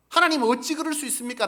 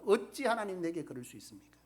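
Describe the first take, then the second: First: Higher and much louder cry of 하나님 어찌; loud protest to God. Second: Said in the usual way. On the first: Retold or imitated. Preacher acting believers crying out to God, loud protest. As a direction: hurl the question at God, loud. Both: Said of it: "라고 하지만".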